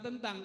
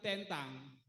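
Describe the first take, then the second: First: The e is read the common Indonesian way. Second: The e is read the Papuan way. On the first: "bukan tentang" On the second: "Jadi semua huruf yang ada huruf E dibaca E bukan E"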